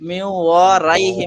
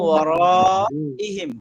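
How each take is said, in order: First: The syllable after wa is said as 'rai'. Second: The syllable after wa is said as 'ra'. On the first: The speaker calls it wrong. "রাই নাই তো এখানে" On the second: The speaker calls it right. "রাই নাই, র আছে"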